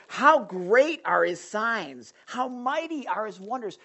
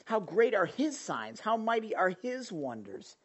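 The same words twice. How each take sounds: First: Slow, grand, marvelling proclamation; awed king proclaiming. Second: Said in the usual way. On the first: Retold or imitated. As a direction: savour each word in wonder. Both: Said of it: "He's, he's like".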